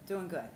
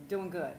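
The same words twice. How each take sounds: The two takes are said the same way.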